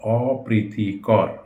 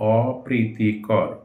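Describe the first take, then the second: No difference in how they are said.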